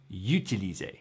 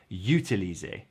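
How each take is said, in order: Both takes have the same delivery.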